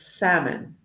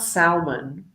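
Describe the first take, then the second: First: The L sound is silent in the word. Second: The L sound is pronounced in the word. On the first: The speaker calls it right. "it's salmon" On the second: The speaker calls it wrong. "We don't pronounce the L. So it's not salmon"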